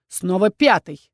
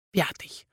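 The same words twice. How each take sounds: First: Slow, pointed sarcasm on "Пятый"; sarcastic repeat. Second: Much softer, repeating the title to himself; muttered name. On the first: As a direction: drag out "Снова Пятый" with mock weariness. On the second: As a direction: mutter it under your breath, offended. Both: Acted. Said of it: "язвительно поддел дракон".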